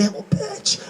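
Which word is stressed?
Bitch. The stress is on the word Bitch.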